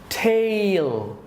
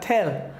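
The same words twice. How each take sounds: First: The vowel glides into an ee sound. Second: The vowel is one flat sound without a glide. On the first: The speaker calls it right. "Two sounds" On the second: The speaker calls it wrong. "not tail"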